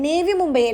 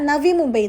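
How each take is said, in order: First: The first word starts with an 'e' vowel. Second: The first word starts with an 'a' vowel. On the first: The speaker calls it wrong. "നേവി Mumbai അല്ല" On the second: The speaker calls it right. "നവി Mumbai എന്നുള്ളത്"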